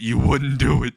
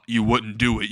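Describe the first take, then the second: First: "wouldn't" pushed harder, in mock disbelief; emphatic repeat. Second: Said in the usual way. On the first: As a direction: lean on "wouldn't" as a worried dare. Villain repeats it more forcefully.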